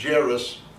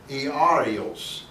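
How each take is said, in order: First: The name has its English pronunciation. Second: The name has its Greek pronunciation. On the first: "the English is Jairus" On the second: "actually is pronounced Iarios"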